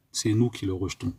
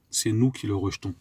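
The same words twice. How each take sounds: The two takes are said the same way.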